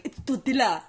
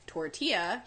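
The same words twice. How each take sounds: First: Mocking correction in a thick Spanish accent; exaggerated Spanish accent. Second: "tortilla" in an everyday English accent; without Spanish accent. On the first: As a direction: overdo the Spanish accent on "tortilla". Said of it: "I was trying to exaggerate". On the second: Shown as a demonstration. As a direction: say "tortilla" the plain anglicized way. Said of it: "but if I don't".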